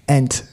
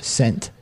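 First: The word begins with a vowel sound. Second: The word begins with an s sound. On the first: "Both the S and the C are silent, and it's really ent" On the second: "It's still scent"

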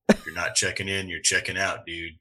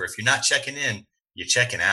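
First: It is said imitating the Stranger's voice. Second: It is said in his normal voice.

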